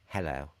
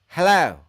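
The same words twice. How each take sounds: First: It is said calmly, without exclamation. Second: It is said excitedly, like an exclamation.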